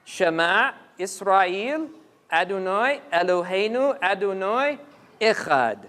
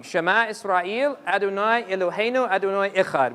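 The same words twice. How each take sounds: First: Slow recital landing hard on "Echad"; stress on Echad. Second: Calm recited Hebrew; recited prayer. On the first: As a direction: lead slowly to "Echad" and let it fall. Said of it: "pay attention to the last word". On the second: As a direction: intone the prayer line evenly. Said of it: "it says the following". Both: Shown as a demonstration.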